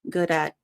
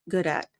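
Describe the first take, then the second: No difference in how they are said.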